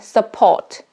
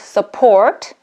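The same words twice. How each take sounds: First: The R sound is dropped. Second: The R sound is pronounced. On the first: "I will drop R" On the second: "I will just pronounce support"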